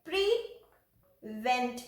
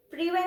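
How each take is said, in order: First: "प्रीवेंट" slow, split as pree, pause, vent; long pause inside "प्रीवेंट" after pree; spelling-style split of "प्रीवेंट"; broken into syllables. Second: Said in the usual way. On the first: Shown as a demonstration. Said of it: "प्रीवेंट में कैसे करेंगे?". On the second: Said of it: "में कैसे करेंगे?".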